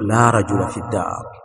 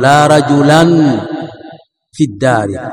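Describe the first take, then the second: First: The noun ends in a short vowel without n. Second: The noun ends with an added n sound. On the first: The speaker calls it right. "بل تقول" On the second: The speaker calls it wrong. "فلا تقول ... فلا تنون الفتحة"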